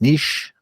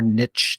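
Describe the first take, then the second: First: The word rhymes with quiche. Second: The word rhymes with rich. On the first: The speaker calls it right. "I think it's pronounced niche" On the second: The speaker calls it wrong. "although it's pronounced wrong"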